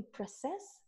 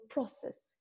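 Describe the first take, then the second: First: Process, stressed on CESS like a verb; stress on second syllable. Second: Process, stressed on PRO like a noun; stress on first syllable. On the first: Verb form for the students, CESS stressed. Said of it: "și dacă spunem". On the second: Noun form for the students, PRO stressed. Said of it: "de exemplu, când spunem". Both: Shown as a demonstration.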